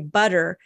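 It is said in an American accent.

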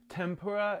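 It is said with an American English accent. "Tempura is how we say it in America"

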